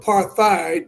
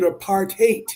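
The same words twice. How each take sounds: First: The last syllable does not sound like 'hate'. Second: The last syllable sounds like 'hate'. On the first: "You can call it apartheid" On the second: "you pronounce it apartheid ... it means literally apart and hate"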